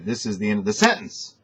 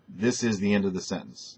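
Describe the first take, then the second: First: The voice goes up on the final words. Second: The voice stays level and falls at the end. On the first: The speaker calls it wrong. "You have a tendency to say, ... Don't go up on the uh, end" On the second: The speaker calls it right. "most people would say it like that"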